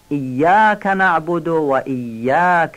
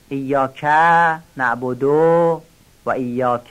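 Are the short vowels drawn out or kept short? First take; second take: kept short; drawn out. First: The short vowels are kept short. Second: The short vowels are drawn out long. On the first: The speaker calls it right. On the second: The speaker calls it wrong.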